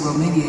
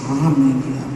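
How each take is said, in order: First: The word is said in a plain, ordinary way. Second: The word is said in an affected, polished way. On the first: This is how the speaker would normally say it. "Barbara wouldn't say Romania" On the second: This imitates a famous newscaster. "she'd say Romania"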